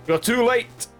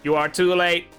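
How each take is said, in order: First: It is said in a normal voice. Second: It is said in a robot voice.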